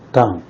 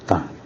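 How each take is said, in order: First: The pitch falls sharply from high. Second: The pitch dips low then rises.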